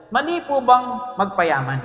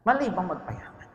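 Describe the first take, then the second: First: Stretched slow question, weight on Mali; slow emphatic question. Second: Softer, quieter repeat of the question. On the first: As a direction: drag out "Mali po bang magpayaman" slowly, pressing on Mali. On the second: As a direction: ask "Mali bang magpayaman" again, much softer. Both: Shown as a demonstration. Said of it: "Tanong kayo, kayo, tanong".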